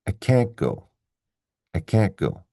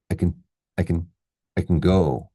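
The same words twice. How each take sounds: First: Full vowel in stressed "can't", T barely heard, then strong "go". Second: "I can" quick and unstressed as "I kn", "go" strong; stress on GO. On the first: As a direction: hit "can't" and "go", swallowing the T. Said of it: "this one is stressed". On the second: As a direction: rush lightly through "I can", land on "go". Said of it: "So we say". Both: Shown as a demonstration.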